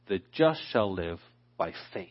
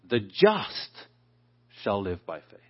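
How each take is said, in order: First: The stress is on the word faith. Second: The stress is on the word just.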